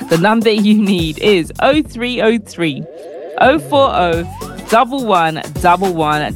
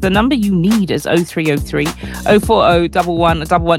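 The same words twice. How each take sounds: First: It is said more slowly. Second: It is said at normal speed.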